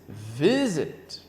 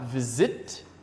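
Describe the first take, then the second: First: The stress is on the first syllable. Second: The stress is on the last syllable. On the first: The speaker calls it right. "it's visit. The stress is in the first word, first syllable" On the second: The speaker calls it wrong. "It's not visit"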